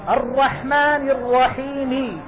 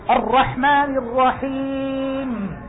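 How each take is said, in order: First: The final consonant carries a full, complete vowel. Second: The final consonant ends with no vowel at all. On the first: "هذه حركة كاملة" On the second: "هذا إيش؟ سكون"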